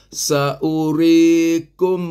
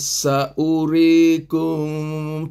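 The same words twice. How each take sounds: First: The final m sound is pronounced clearly. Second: The final m sound is blurred, not clear. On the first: The speaker calls it right. "Yang betul sa'urikum" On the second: The speaker calls it wrong. "Tak boleh sa'urikum. Tak. Itu tak betul"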